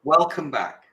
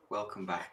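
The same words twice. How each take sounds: First: Said in the usual way. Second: Breathy whispered welcome. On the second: Acted. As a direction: drop to a playful whisper. Repeated greeting, then whispered.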